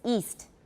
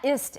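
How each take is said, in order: First: The vowel is long, like 'east'. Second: The vowel is short, like 'ist'. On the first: The speaker calls it right. "It's east" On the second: The speaker calls it wrong. "Not ist"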